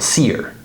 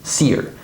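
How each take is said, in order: First: The h is dropped, merging into one word. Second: The same.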